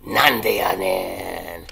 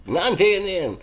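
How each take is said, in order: First: Low, slow and loud; deep booming delivery. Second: Loud, punchy and quick; loud exclamation. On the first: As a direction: boom it out like a big announcer. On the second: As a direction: snap it out in disbelief. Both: Shown as a demonstration. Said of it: "and that word is".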